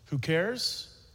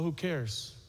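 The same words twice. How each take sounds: First: It is said as an emphatic rhetorical question. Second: It is said dismissively, like a shrug.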